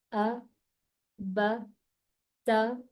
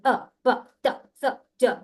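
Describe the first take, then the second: First: Slow, calm reading. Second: Jerky loud letters, pushed out; fast and loud. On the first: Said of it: "इसको अब मैं slow पढ़ के दिखाऊं". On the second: Teacher showing the wrong way, fast and loud. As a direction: hammer each letter loud and quick. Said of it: "जल्दी भी पढ़ूंगी और जोर जोर से पढ़ूंगी". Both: Shown as a demonstration.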